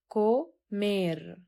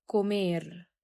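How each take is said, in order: First: كومير said slowly with a hard k at the start; hard k sound. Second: كومير again with a clear k; repeat model. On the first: Teacher showing how to pronounce comer, slowly. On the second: Teacher repeating comer for the students. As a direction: repeat كومير, k sound before o. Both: Shown as a demonstration. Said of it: "هنا نطقنا الثي كاف".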